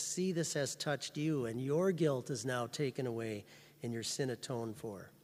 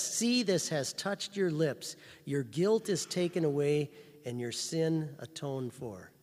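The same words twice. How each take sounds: First: Softer, quiet, reassuring; soft personal assurance. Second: Louder, slow, weighty declaration; loud slow proclamation. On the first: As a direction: tell it gently to each listener. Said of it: "He says". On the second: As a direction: proclaim it to the whole church. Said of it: "And then he says". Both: Retold or imitated.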